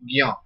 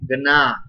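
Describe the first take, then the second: First: The cluster is said with a 'gy' glide sound. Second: The cluster is said with a nasal 'gn' sound. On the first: This is how some regions of the country say it. "some people pronounce this Gna as Gya" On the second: This follows the speaker's own teaching tradition. "Gna is J plus Y plus A is equal to Gna"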